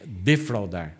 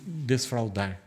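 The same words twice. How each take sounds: First: "Defraudar" said cleanly with no s, de-frau-dar, a bit louder; "Defraudar" stated clearly and pointedly, no s after de; corrected pronunciation. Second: "desfraudar" said with a wrong extra s, as if des-fraudar; "desfraudar", the mistaken s sound kept in; mispronounced desfraudar. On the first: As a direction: firmly correct it to "Defraudar", no extra s. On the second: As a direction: slip in "desfraudar" with an added s before the f. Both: Shown as a demonstration. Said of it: "desfraudar é tirar a fralda".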